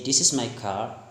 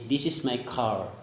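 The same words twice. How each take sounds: First: Lightly attempted British accent; British-style CAR with a softened R. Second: Lightly attempted American accent; American-style CAR with the R sounded. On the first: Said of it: "In British". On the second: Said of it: "but in American accent". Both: Shown as a demonstration.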